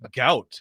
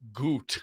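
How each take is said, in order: First: The vowel sounds like the one in out. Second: The vowel sounds like the one in boot. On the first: The speaker calls it right. "It's gout" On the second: The speaker calls it wrong. "not goot"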